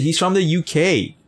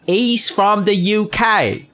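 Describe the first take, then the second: First: Said in the usual way. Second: High, slow put-on British accent; mock British accent. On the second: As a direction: drag it out in a hammed-up British accent. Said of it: "That's how people talk".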